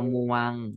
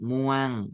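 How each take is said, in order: First: The syllable is said on a level mid tone. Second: The syllable is said with a falling tone. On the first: "มอวองอมวง" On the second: "ไม้เอก"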